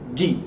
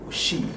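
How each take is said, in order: First: The consonant is a full stop without airflow. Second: The consonant is a soft hissing sound. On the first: The speaker calls it right. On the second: The speaker calls it wrong.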